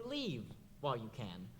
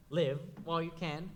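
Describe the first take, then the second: First: "Leave" with a long ee, softer. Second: "Live" with a short i, rhyming with give. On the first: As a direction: stretch the ee in "Leave". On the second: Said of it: "Is she saying". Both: Shown as a demonstration.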